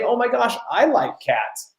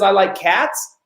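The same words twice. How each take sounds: First: Fake gushing. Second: Said in the usual way. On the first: Shown as a demonstration. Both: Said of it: "instead of saying".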